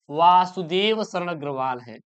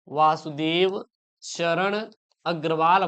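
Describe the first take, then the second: First: Said in the usual way. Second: Slow, low and soft, name by name; unhurried, spaced-out repeat in a lowered voice; slow dictation. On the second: Shown as a demonstration. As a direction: dictate the name with gaps between its parts. Teacher repeats author's name as dictation.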